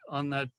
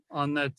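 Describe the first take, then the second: No difference in how they are said.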